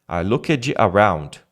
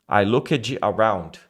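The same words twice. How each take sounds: Both takes have the same delivery.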